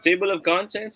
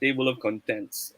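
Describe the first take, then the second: First: The stress in contents falls on the first syllable. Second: The stress in contents falls on the second syllable. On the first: The speaker calls it right. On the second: The speaker calls it wrong.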